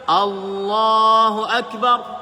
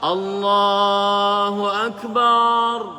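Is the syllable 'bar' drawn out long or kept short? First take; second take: short; long. First: The final syllable bar is kept short. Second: The final syllable bar is drawn out long. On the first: The speaker calls it right. "Itu yang benar" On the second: The speaker calls it wrong. "barnya panjang"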